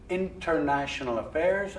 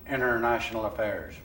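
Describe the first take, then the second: First: The 't' in 'international' is clearly pronounced. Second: The 't' in 'international' is merged into the 'n'. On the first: "pronounce international affairs" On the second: "as international affairs"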